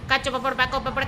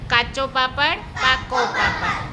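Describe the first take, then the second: First: The phrase is said fast. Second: The phrase is said slowly. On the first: "ચાલો ઝડપથી સાંભળો" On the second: "હું જેવી રીતે ધીમે ધીમે બોલું"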